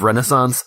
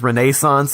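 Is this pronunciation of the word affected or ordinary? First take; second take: ordinary; affected. First: The word has its ordinary, everyday pronunciation. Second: The word has an affected, showy pronunciation. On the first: "instead of Renaissance" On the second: "he says Renaissance"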